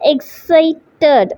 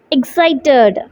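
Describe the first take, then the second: First: "Excited" in three beats, ex, ci, ted, with pauses; syllable by syllable. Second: Said in the usual way. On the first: Shown as a demonstration. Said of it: "you can feel that". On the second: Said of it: "So while saying the word".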